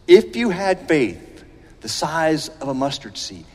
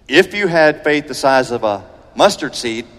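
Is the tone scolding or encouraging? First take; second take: encouraging; scolding. First: It sounds warm and encouraging. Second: It sounds disappointed and scolding.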